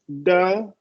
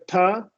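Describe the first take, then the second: First: The T is a quick flap with a schwa. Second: The T is a full, aspirated stop. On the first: "it becomes the" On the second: "instead of ta"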